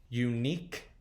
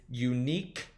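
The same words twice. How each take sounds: Both takes have the same delivery.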